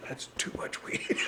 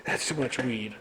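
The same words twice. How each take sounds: First: "That's too much weed." whispered, no voice at all; whispered aside. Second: Said in the usual way. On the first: Acted. Repeats joke line as whisper.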